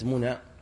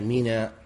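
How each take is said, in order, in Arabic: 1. يُنطق الاسم بحركات عامية. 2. يُنطق الاسم بحركات فصيحة. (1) "ليست كما ينطق بعض العامة" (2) "هي منا"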